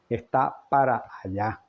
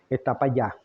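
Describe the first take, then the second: First: Every sound of the words is articulated clearly. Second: The words are slurred, with sounds dropped. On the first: The speaker calls it right. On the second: The speaker calls it wrong.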